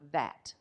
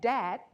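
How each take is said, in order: First: The word begins with a th sound. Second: The word begins with a d sound. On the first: "T H A T" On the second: "D A T"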